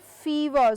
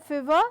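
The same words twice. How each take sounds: First: The first vowel is said long. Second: The first vowel is said short. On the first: The speaker calls it right. "but I say fever. So it's a long vowel sound there" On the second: The speaker calls it wrong. "I do not say fever"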